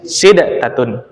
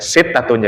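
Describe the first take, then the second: First: A d sound is heard before the t. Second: The d merges into a doubled t sound. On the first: This is the original underlying form. "memang asalnya sitatun itu sid" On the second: This is the assimilated form actually used. "Dia digomkan, gitu. Ya sitatun jadi"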